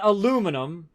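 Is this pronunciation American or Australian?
American. It is said with an American pronunciation. "like we say here in the States"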